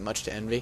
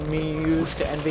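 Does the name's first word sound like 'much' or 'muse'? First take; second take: much; muse. First: The first word sounds like 'much'. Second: The first word sounds like 'muse'. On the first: This is probably the correct pronunciation. "I think is how you pronounce it" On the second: This is the pronunciation the speaker prefers. "That's how I kind of want to say it"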